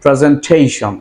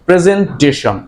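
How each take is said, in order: First: The ending is said with a long ay sound. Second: The ending is said with a short a sound. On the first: The speaker calls it right. "the correct pronunciation will be presentation" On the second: The speaker calls it wrong. "অ্যাশন উচ্চারণ করে থাকি"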